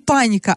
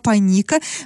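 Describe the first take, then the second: First: The stress is on the first syllable. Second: The stress is on the second syllable. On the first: The speaker calls it wrong. "то есть не паника" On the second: The speaker calls it right. "Ударение в этом названии падает на второй слог"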